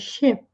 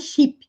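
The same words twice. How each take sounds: First: The vowel is relaxed, between 'i' and 'e'. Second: The vowel is a tense, Portuguese-like 'ee' sound. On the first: The speaker calls it right. "É com a boca relaxada. É um som intermediário entre I e E" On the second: The speaker calls it wrong. "Não é ship"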